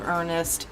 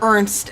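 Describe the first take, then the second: First: The name is said with two syllables. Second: The name is said with one syllable. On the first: The speaker calls it wrong. "we're calling him Ernest" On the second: The speaker calls it right. "as I've learned is the actual pronunciation of his name"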